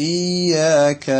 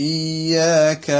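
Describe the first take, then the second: Both takes have the same delivery.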